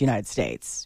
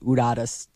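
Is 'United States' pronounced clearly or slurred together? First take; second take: clearly; slurred. First: Every syllable of the name is said clearly. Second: The name is squashed into a slurred short form. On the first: The speaker calls it right. "it's pronounced United States" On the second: The speaker calls it wrong. "like not Udadas"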